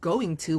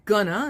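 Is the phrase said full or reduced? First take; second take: full; reduced. First: Each word is said fully and separately. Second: The words are blended into a reduced form. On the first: "instead of going to" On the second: "You can say gonna"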